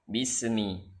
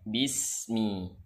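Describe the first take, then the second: First: The s bounces with a short e-like vowel. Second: The s flows steadily straight into the m. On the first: The speaker calls it wrong. "Seakan-akan di sini ada bunyi e" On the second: The speaker calls it right. "maka tunaikan hak rokhawahnya"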